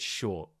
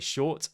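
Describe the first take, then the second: First: The final T becomes a glottal stop. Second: The final T is clearly released. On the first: "I said short" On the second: "I didn't say short"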